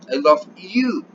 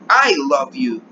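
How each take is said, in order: First: The stress falls on the word you. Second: The stress falls on the word I. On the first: It is you, and not someone else, that I love. "Yo te amo a ti" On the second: It is me, and not someone else, who loves you. "¿Quién te ama? Pues yo"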